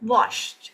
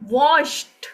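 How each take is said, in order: First: The word ends with a light t sound. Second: The word ends with a forced d sound. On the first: The speaker calls it right. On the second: The speaker calls it wrong.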